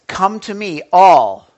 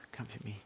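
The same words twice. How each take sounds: First: "all" shouted hard and loud; stress on all. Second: Quietly murmured COME to me; hushed quote. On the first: Preacher booms "all" to stress the Greek word. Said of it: "Now that word in". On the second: Preacher murmurs the verse quietly before proclaiming it. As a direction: say it softly to yourself. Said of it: "Listen, okay". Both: Shown as a demonstration.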